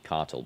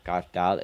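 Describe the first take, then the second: First: The name is said with a British-style pronunciation. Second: The name is said with an odd, unusual pronunciation. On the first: The speaker calls it right. "it's meant to be cartel because they're from uh, U- United Kingdom" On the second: The speaker calls it wrong. "Why do I say that in a really weird way?"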